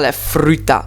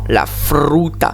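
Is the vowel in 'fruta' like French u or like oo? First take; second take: French u; oo. First: The u sounds like the French front u. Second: The u sounds like a rounded back oo. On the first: The speaker calls it wrong. "attention à ne pas dire la fruta" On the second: The speaker calls it right. "non, la fruta"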